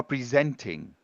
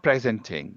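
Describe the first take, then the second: First: Presenting as pri-ZENT-ing, weak first syllable; verb stress. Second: Presenting as PREZ-en-ting, weight on the first syllable; stress shown wrong. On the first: Teacher telling learner what she is doing, stress on SENT in presenting. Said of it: "what you have been doing is". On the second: Teacher showing learner the mistaken form, stress on PRE in presenting. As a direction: hit PRE at the start of presenting. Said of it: "You are not presenting". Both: Shown as a demonstration.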